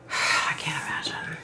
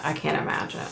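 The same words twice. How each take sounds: First: Sigh, then whisper it; whispered I can't imagine after a sigh. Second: Said in the usual way. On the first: Real, not acted. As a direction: breathe it out in a whisper. Repeats phrase, fading to whisper.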